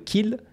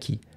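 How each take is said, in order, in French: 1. Le son final l est prononcé. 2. Le son final l est omis. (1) "le qu'il devient qui" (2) "devient qui"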